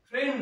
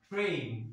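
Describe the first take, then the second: First: The vowel is a short plain 'eh' sound. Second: The vowel glides like 'ay' toward 'ee'. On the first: The speaker calls it wrong. "ট্রেন নয়" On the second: The speaker calls it right. "হতে হতো ট্রেন"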